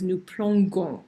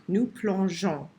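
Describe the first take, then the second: First: Plongeons said with a hard g, "plongons"; wrong hard g. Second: Plongeons with a soft zh sound. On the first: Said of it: "but this currently says nous plongeons". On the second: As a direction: give plongeons a clear soft zh. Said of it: "in order to make that j sound". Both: Shown as a demonstration.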